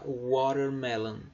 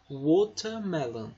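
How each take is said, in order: First: The middle t sounds like a quick r. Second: The middle t is a clear t sound. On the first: This is the American pronunciation. "Nos Estados Unidos, eles falariam alguma coisa tipo watermelon... Como se fosse como se esse T se transformasse num R" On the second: This is the British pronunciation. "Já na Inglaterra... eles tendem a pronunciar como se fosse um T mesmo"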